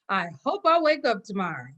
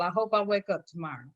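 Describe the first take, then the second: First: It is said in a bright, hopeful tone. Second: It is said in a gloomy, negative tone. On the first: Tomorrow is something to look forward to. The speaker calls it right. "Just change how you say it" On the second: Waking up tomorrow is in doubt. The speaker calls it wrong. "Even though they think that's a negative"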